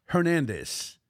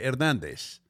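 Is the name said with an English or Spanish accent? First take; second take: English; Spanish. First: The name is said with an English accent. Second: The name is said with a Spanish accent.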